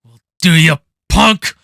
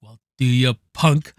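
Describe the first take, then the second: First: Loud, hard delivery of the threat; loud, serious tough-guy challenge; serious Clint Eastwood line. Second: Easy, almost playful threat; casual imitation of a cool cop line; lighthearted Clint Eastwood line. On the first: Retold or imitated. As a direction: punch it out like a cop at the end of a hunt. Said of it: "where it's very serious". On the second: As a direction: toss it off lightly, half amused. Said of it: "almost lighthearted".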